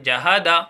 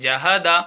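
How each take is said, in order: Both takes have the same delivery.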